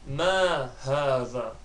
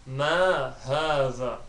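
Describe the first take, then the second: Both takes have the same delivery.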